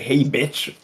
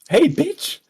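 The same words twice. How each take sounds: First: It is said in the speaker's normal voice. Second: It is said in a put-on girl voice.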